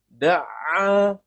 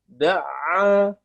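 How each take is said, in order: The two takes are said the same way.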